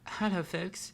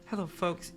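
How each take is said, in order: First: It is said in a childish baby voice. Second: It is said in the character's original voice. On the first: The speaker calls it wrong. "baby version" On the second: The speaker calls it right. "the original voice you had"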